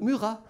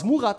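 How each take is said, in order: First: The name is pronounced the French way. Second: The name is pronounced the German way. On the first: "die französische Version ihres Namens" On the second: "Aus Murat wird"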